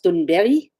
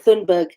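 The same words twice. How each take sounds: First: The surname has a Swedish-style pronunciation. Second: The surname has an English-style pronunciation. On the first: "in Swedish, her surname is pronounced" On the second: "we pronounce her name"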